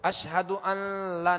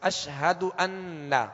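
First: The nun slides into an L sound. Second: The nun is clear and held with nasal sound. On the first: The speaker calls it wrong. "نہیں پڑھیں گے, لام کی طرف نون کا مخرج لام کی طرف پلٹ رہا ہے" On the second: The speaker calls it right. "نون واضح اور ظاہر ہوگا اور اس کا غنہ واضح ہوگا"

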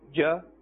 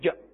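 First: The syllable is said smoothly at normal length. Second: The syllable is cut short with a jerk. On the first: The speaker calls it right. "In the normal manner" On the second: The speaker calls it wrong. "don't jerk the sound and say"

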